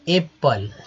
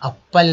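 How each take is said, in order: First: एप्पल opening on an "e" sound; एप्पल with front vowel first, not "uh"; correct pronunciation. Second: एप्पल turned into "UP-pul"; wrong pronunciation. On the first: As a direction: say एप्पल as "EP-pul". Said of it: "यहाँ एप्पल होगा". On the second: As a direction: say एप्पल with "uh" as first vowel. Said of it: "यहाँ एप्पल नहीं बोलेंगे". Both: Shown as a demonstration.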